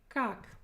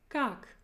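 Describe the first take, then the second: Both takes have the same delivery.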